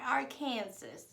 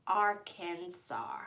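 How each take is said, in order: First: Arkansas misread as "ar-KAN-zus"; mispronounced state name. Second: Arkansas said slowly as "AR-kan-saw"; correct state name. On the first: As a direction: say Arkansas like "Kansas" with Ar in front, final s sounded. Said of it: "It's not Arkansas". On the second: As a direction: spell out Arkansas by ear, ending in "saw", silent final s. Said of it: "It doesn't have two K". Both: Shown as a demonstration.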